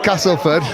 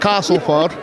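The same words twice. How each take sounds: First: It is said in a northern English accent. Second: It is said in a southern English accent.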